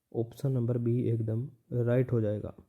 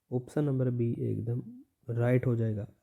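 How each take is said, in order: No difference in how they are said.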